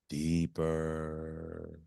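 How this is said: It is said at a fairly low pitch.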